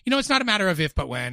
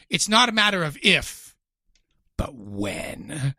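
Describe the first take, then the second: First: It runs straight through without a dramatic pause. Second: A dramatic pause comes before "but when."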